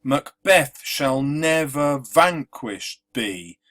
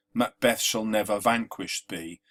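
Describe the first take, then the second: First: Slow, louder Macbeth shall never vanquished be, each second syllable leaned on; iambic stress. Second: Said in the usual way. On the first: Shown as a demonstration. Teacher demonstrating the iambic beat, slow and marked. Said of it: "you can see how the stresses try to match normal speech". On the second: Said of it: "It feels quite natural".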